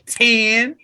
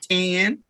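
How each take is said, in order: First: It is said with a twang and sassy snap. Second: It is said with a plain country twang. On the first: Someone is mocking the speaker's way of saying it. "He would mock me, ... He would add a snap to it" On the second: This is how the speaker normally says it. "I would say it with a twang"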